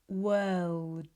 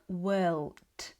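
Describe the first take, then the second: First: The final D is short, voiced, without air. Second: The final D releases a puff of air. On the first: The speaker calls it right. "keep the final sound short and voiced" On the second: The speaker calls it wrong. "It shouldn't sound like world"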